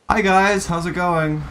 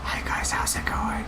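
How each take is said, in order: First: It is said loudly and showily. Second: It is said quietly and toned down.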